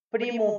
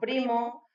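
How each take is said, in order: First: The last vowel is pronounced as u. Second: The last vowel is pronounced as o.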